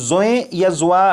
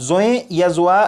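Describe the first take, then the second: No difference in how they are said.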